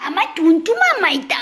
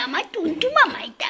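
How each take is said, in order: First: High doting coo. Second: High doting whisper. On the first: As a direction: coo over the pet lovingly. Cooing at pet. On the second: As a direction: whisper it close to the pet. Whispering to pet. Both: Real, not acted.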